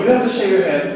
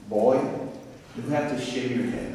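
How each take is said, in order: First: Said in the usual way. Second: Attempted Southern accent, softly voiced. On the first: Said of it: "I can't do that". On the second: Dean ordering a new student to shave, attempted Southern accent. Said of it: "I can't do that southern accent".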